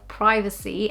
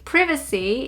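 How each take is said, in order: First: It is pronounced the American English way. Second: It is pronounced the British English way. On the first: "instead of privacy" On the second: "we say privacy"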